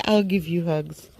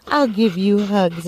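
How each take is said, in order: First: Said in the usual way. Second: Cooing to the dog. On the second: Real, not acted.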